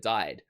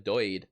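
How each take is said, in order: First: The vowel is a standard 'eye' sound. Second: The vowel is an Irish-sounding 'oy'.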